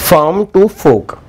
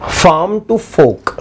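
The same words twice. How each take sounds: Both takes have the same delivery.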